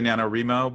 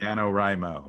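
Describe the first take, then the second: First: The third syllable sounds like 'ree'. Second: The third syllable sounds like 'rye'. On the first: The syllable sounds like it stands for reading. The speaker calls it wrong. "some people say" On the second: The syllable stands for writing. The speaker calls it right. "the nano rye part is writing"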